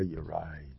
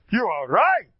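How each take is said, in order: First: Low, quiet throwaway admission; understated, barely-there admission; grudging concession. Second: Loud, high, proud declaration; ringing, emphatic concession; proud, with a stolz. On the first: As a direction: mumble the concession softly and low. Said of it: "I don't just say". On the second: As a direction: declare it proudly, every word given full weight. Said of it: "I do it with a stolz". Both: Shown as a demonstration.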